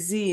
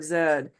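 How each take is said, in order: First: The letter name is said the American way. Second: The letter name is said the non-American way. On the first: "Americans are the only ones who actually say Z" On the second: "instead of Z"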